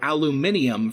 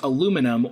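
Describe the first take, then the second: First: It is said the British way, five syllables. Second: It is said the American way, four syllables.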